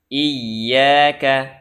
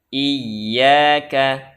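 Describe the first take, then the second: First: The y sound is held and doubled. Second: The same.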